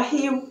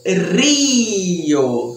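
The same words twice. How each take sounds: First: Rio with the soft Brazilian throaty R, like hiu; Portuguese R. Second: Rio with a strong trilled Spanish R, like rrio; dramatic trilled R on Rio. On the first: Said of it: "Com aquele Rzinho". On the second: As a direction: Rio with a bold trilled R, mouth wide open. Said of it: "a letra mais dramática". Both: Shown as a demonstration.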